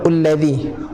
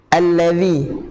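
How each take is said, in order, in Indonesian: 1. Kata itu diawali dengan vokal 'u'. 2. Kata itu diawali dengan vokal 'a'. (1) "ataupun ullazi" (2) "baca dengan baris atas ataupun fat fathah"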